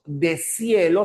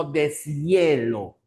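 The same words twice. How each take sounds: First: Deshielo as de-SIE-lo; wrong syllable split. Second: Deshielo slowly as des-YE-lo; correct syllable split. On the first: Teacher showing what we don't say, de-sielo. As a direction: join S to IE in deshielo. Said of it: "no decimos deshielo". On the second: Teacher showing how we say it, slow des-yelo. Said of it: "sino deshielo". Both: Shown as a demonstration.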